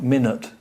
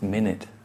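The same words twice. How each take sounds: First: The second vowel is a schwa. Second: The second vowel is an 'i' sound. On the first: The speaker calls it wrong. "It's not minute" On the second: The speaker calls it right. "It changes to an I"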